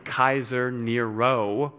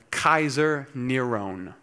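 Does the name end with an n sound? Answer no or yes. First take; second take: no; yes. First: The name ends with a vowel sound. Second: The name ends with an n sound. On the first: This form adds up to 616. "The second is a Greek pronunciation" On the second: This form adds up to 666. "The first is a Hebrew pronunciation"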